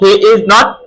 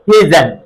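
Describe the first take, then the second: First: Three separate words with a full vowel in 'is'. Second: 'Is not' merges into one short syllable pair.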